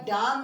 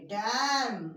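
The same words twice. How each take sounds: First: डैम misread as "daam", with long "aa"; wrong long-AA reading. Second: डैम with a drawn open "ae" vowel; teacher's model डैम with "ae", not "aa"; correct AE vowel. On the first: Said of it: "इधर डैम नहीं पढ़ेंगे". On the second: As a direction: say डैम as English dam, "daem". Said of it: "डैम पढ़ेंगे". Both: Shown as a demonstration.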